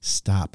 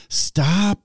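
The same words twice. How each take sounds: First: Said in the usual way. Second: Put-on aggravated kid. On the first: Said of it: "how your kids say". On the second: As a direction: stop rising in two syllables, whiny. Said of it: "if they're aggravated with you".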